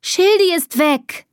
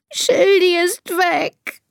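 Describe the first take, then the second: First: High, slow wail of alarm; distressed cry. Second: High, very slow tearful wail; sobbing. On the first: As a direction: cry out the bad news, pitched high. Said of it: "Was schreist du denn so". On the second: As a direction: draw it out as a miserable whimper. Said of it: "schluchzt Elisa". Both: A narrator's reading.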